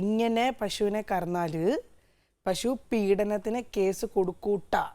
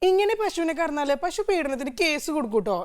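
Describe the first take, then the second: First: It is read plainly without a dialect accent. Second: It is said in a Thrissur dialect accent. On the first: "ഇതാണ് എഴുതിയിരിക്കുന്നത്" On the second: "ഇതാണ് എന്നെ കൊണ്ട് maximum പറയാവുന്ന തൃശ്ശൂർ ഭാഷ"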